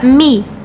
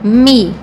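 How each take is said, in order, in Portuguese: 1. A sílaba tem a vogal 'ee'. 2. A sílaba tem a vogal 'ee'.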